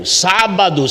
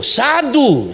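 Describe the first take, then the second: First: Said in the usual way. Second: "Sábado" shortened to "sádo", pitched up; dropped syllable. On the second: the speaker repeats the day, swallowing the middle of "Sábado". Imitates helper's clipped word, then corrects.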